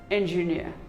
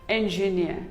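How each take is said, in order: The two takes are said the same way.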